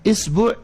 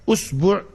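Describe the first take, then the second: First: The word begins with the vowel i. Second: The word begins with the vowel u. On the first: "kalau hamzahnya dikasrohkan" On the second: "Kalau hamzahnya dhammah"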